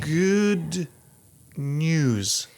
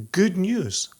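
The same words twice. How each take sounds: First: Put-on drawn-out old Hollywood "Good news"; "Good" lifted, "news" falling, film-star style; transatlantic accent. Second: Put-on posh old Hollywood "good news"; "good news" in a mid-Atlantic film-star voice; transatlantic accent. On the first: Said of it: "Am I saying that correctly?". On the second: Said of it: "I wanna make sure I'm pronouncing this correctly". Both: Shown as a demonstration.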